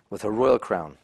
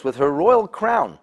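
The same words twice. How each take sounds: First: Said in the usual way. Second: Royal stressed higher and slower; emphasized crown. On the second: Shown as a demonstration. Teacher to students, "royal" drawn out high. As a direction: lean on "royal" slowly, a little higher.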